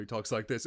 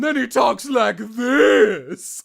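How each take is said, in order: First: Said in the usual way. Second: Loud, high, elongated shout; Neza. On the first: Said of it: "parts where he talks like this". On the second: Shown as a demonstration. Voice actor demonstrating a character's big moments, drawn-out shout. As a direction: stretch the words out on a big push of breath. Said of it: "elongating speech patterns".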